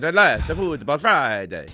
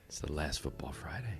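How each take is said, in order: First: It is said in a plain, ordinary tone. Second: It is said in a seductive, sexy tone.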